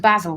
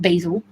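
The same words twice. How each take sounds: First: The first vowel is short, as in 'bad'. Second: The first vowel is long, as in 'bay'. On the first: The speaker calls it right. "Because it's basil" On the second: The speaker calls it wrong. "not basil ... Where'd the A come from?"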